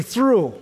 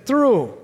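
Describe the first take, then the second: First: Said in the usual way. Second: "Through" said higher and leaned on, a firm falling word; emphatic repeat. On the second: Shown as a demonstration. Preacher repeating the word with the congregation, stressed. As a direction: punch "Through" as the congregation echoes it. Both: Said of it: "I want you to say that word with me".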